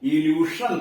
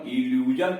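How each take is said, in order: First: The middle consonant is a voiceless sh sound. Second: The middle consonant is a voiced zh sound. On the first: The speaker calls it wrong. "इल्यूशन तो नहीं पढ़ना है" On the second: The speaker calls it right. "पढ़ना है इल्यूजन"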